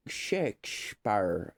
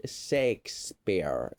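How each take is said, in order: First: "Shakespeare" drawn out with a second sh; "Shakespeare" slowly, sh before the p; variant Shakespeare. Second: "Shakespeare" slowly, opening sek- not shake-; "Shakespeare" with plain s at the start; s-initial Shakespeare. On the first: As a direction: stretch "Shakespeare" as shek-shpar. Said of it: "why they would say". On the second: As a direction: say "Shakespeare" as seks-peer. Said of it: "why they would say sex". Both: Shown as a demonstration.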